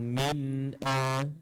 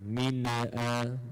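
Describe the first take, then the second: First: The n sound is held, then a glottal stop. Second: The n sound bounces with a small vowel. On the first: The speaker calls it right. "tekan pada nun mati, kemudian datangkan hamzah" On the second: The speaker calls it wrong. "dia melantunkan min tu"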